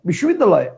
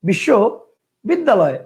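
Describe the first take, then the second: First: The word is said in one unbroken part. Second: The word is broken into two separate parts. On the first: "একবারে ... একটা" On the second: "দুইটা"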